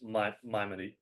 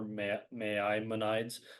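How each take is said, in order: First: The first syllable sounds like 'my'. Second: The first syllable sounds like 'may'. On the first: The speaker calls it right. "but it's My" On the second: The speaker calls it wrong. "you might be tempted to pronounce it May"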